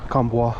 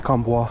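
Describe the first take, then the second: First: The name is given a French pronunciation. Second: The same.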